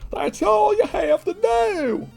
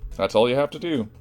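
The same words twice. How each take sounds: First: It is said in an exaggerated celebrity impression. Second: It is said in the speaker's normal voice.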